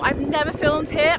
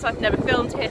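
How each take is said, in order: First: Said in the usual way. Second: "filmed" punched, falling tune; stress on filmed. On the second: Shown as a demonstration. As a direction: lean hard on "filmed". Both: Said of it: "I've been here a few times".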